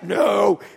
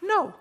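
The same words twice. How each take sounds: First: It sounds harsh and mean. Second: It sounds friendly, with a smile.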